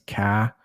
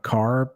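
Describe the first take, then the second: First: It is said in a Boston accent. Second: It is said in a general American accent.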